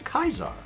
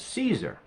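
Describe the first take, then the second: First: The name begins with a K sound. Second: The name begins with an S sound. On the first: This is how members of the faction say it. "all of the people who are in the Legion say Kaiser" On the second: This is how outsiders to the faction say it. "Everybody who is not in the Legion says Caesar"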